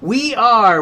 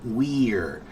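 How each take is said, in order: First: It is said as two separate syllables. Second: It is squashed together into one syllable. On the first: "It is still we are" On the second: "it's just so crushed together. You just squash it"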